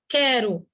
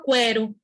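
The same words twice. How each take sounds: First: "quero" as "KÉ-ro", no w; plain k straight into é in "quero"; silent u. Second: "quero" mispronounced as "kwé-ro"; "quero" with its mute u voiced; wrong, u sounded. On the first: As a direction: correct "quero" with the u unspoken. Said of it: "É quero". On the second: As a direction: put a w after the k in "quero". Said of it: "Ninguém fala". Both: Shown as a demonstration.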